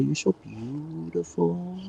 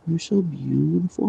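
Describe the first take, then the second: First: Higher, slow and softer coo; soft pet talk. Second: Higher coo at normal level; higher doting voice for the dog; pet talk. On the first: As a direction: croon it slowly to the dog. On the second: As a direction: say it again to the dog, pitched up. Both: Real, not acted. Cooing to her dog.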